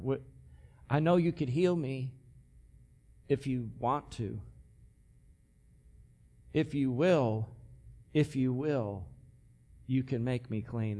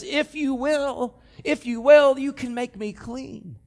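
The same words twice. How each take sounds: First: Softer, lower, hushed pleading; pitiful plea. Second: Higher, pleading plea from the knees; begging leper. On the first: Humble leper asking Jesus for healing, soft pitiful plea. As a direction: ask timidly, unsure of the answer. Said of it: "a pathetic, poor, pitiful leper". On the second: Kneeling leper begging Jesus, higher urgent plea. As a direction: beg for mercy, urgent. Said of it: "He's begging him". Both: Acted.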